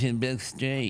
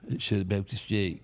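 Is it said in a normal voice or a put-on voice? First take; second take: put-on voice; normal voice. First: It is said in a put-on commenter voice. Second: It is said in his normal voice.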